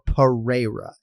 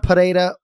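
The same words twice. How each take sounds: First: The R is plain, without a trill. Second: The R is rolled with a trill. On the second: "You roll the R"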